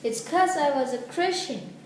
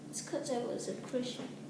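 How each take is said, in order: First: It is said louder and clearer. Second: It is said quietly and meekly.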